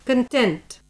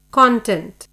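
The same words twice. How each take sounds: First: Content said kən-TENT, weak first syllable, stress on TENT; stress on second syllable. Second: Content said CON-tent, full first syllable, stress on CON. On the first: Teacher models the adjective for a class, kən-TENT. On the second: Teacher models the noun for a class, CON-tent. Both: Shown as a demonstration. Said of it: "Listen to the correct pronunciation".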